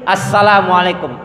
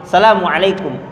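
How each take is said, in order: The two takes are said the same way.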